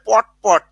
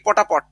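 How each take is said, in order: First: The two words are said separately, no joining vowel. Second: An 'a' vowel joins the two words. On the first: "পট পট আমরা বলে" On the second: "উচ্চারণ করি কি পটাপট"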